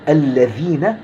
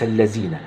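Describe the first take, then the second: First: The consonant is made with the tongue between teeth. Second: The consonant is made without the tongue between teeth. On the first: The speaker calls it right. "بحرف الذال" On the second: The speaker calls it wrong. "وليس الذين"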